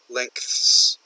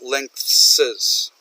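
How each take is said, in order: First: The word is said as one syllable. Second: The word is said with an extra syllable. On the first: The speaker calls it right. "The f original word is length, and then s" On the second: The speaker calls it wrong. "He adds a syllable"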